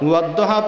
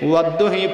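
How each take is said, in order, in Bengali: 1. শব্দটি 'a' স্বরধ্বনি দিয়ে শেষ হয়। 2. শব্দটি 'i' স্বরধ্বনি দিয়ে শেষ হয়। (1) "জবর দিয়া পড়ে শোনাইছেন" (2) "জের দিয়া পড়েও"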